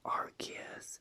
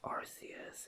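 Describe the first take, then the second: First: The first part does not sound like 'arse'. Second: The first part sounds like 'arse'. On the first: This is the later, changed pronunciation. "they later changed it to Arceus" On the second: This is the original pronunciation. "they used to pronounce it Arceus, but the beginning of its name meant a"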